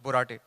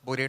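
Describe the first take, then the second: First: It is pronounced unlike the chemical borate. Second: It is pronounced like the chemical borate. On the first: This is the real surname. The speaker calls it right. "but it's Borate" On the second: This was a schoolyard nickname. The speaker calls it wrong. "like the chemical"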